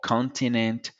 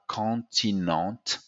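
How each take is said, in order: First: It is said in a plain English accent. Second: It is said in a French accent. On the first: "just like in accent or continent" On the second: "they will say uh, continent"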